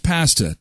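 It is said the Canadian way.

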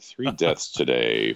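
It is said in a grave, serious tone. The news is treated as solemn. The speaker calls it right. "I have to change the tone, like"

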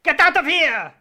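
It is said in a put-on French accent.

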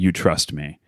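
The voice falls at the end, like a statement.

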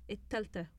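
It is said the Egyptian Arabic way.

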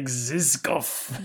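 It is said in a menacing, villainous voice. The speaker calls it right.

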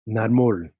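The name is said with a Spanish accent.

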